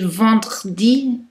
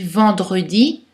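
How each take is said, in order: First: The middle vowel is dropped, clustering three consonants. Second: The middle vowel is pronounced between consonants. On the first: The speaker calls it wrong. "prononcer vendredi est très difficile" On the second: The speaker calls it right. "on dit vendredi"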